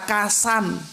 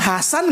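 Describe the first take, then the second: First: The name begins with a k sound. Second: The name begins with an h sound. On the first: The speaker calls it wrong. "nggak bisa ngomong Muhammad karena lidah orang Jawa begitu" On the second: The speaker calls it right. "Bilang Hasan nggak bisa"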